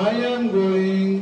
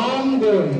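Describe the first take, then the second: First: Each word is said separately and fully. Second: The words are joined into one reduced chunk. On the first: The speaker calls it wrong. "ওরা আই এম গোয়িং এত ভেঙ্গা চুরা বলে না" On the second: The speaker calls it right. "ওরা জোড়া লাগায় দেয়"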